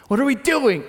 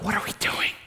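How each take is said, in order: First: Higher and louder alarmed cry; louder worried cry. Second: Breathless whisper of nervous disciples; whispered worry. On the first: Pastor voicing disciples in the boat, crying out in alarm. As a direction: let the worry burst out. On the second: Pastor voicing disciples setting off in the boat, whispering worry. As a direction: whisper it like you're afraid to be heard. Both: Retold or imitated.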